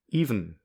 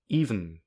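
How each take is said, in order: No difference in how they are said.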